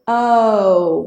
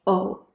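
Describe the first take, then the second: First: The vowel glides as the lips keep rounding. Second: The vowel stays steady and stops short. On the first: The speaker calls it right. "We want to move our lips to make an O even further. So don't stop" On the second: The speaker calls it wrong. "Most Indonesians are saying O"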